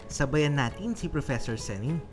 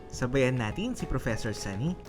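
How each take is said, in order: No difference in how they are said.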